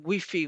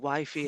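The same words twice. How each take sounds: First: Wi-Fi is pronounced with a Spanish accent. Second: Wi-Fi is pronounced with an English accent. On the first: The speaker calls it wrong. "because of my Spanish accent" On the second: The speaker calls it right. "instead of the Wi-Fi"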